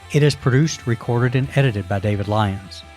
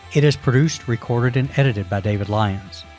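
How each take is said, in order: Both takes have the same delivery.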